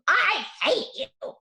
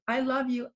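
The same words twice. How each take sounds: First: Higher, louder, slow shouted outburst; angry child yell. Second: Said in the usual way. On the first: Retold or imitated. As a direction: yell it like a furious kid. Daughter yelling back through door. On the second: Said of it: "Just regularly saying to her".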